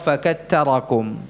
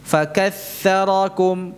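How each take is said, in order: First: The middle consonant is a t sound. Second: The middle consonant is a soft th sound. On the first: The speaker calls it wrong. "bukan pula ta" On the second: The speaker calls it right. "Ini tha ini"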